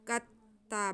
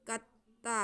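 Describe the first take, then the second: Both takes have the same delivery.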